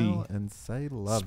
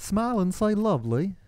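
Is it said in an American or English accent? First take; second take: American; English. First: It is said in the speaker's usual American accent. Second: It is said in a put-on English accent.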